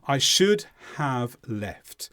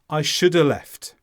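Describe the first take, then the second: First: The word have is pronounced fully. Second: The word have is weakened and barely heard.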